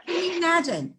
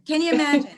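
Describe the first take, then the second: First: Quick, laughing, higher; laughing disbelief. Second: Louder, higher, fully amazed; emphatic repeat. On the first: Amused disbelief at the dog. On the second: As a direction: hammer it home with amazement. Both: Real, not acted.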